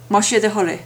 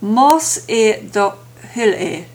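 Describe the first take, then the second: First: The phrase is said quickly, with words run together. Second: The phrase is said carefully, every word distinct.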